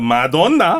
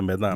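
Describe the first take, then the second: First: The first syllable is 'ma' with a full 'o'. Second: The first syllable is 'meh' with a reduced vowel. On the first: The speaker calls it wrong. "이 발음 잘못해가지고 아무도 못 알아들었어요" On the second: The speaker calls it right. "메다나라고 그럽니다"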